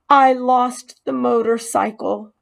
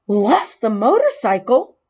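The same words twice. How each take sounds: First: A touch higher, stressed on I; owning up, ashamed; confessing mouse. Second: Higher and louder, rising on motorcycle; can't believe it; shocked echo. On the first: Mouse confessing to the boy, mildly ashamed. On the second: Boy echoing the mouse's confession, stunned. Keith echoes in disbelief. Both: Acted.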